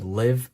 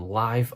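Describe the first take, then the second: First: The vowel is short, rhyming with give. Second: The vowel is long, rhyming with five. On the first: It refers to living or being alive. "Living as if living life" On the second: It refers to something happening in real time. "live as in a live call or a live lecture"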